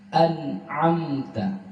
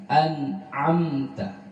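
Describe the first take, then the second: The two takes are said the same way.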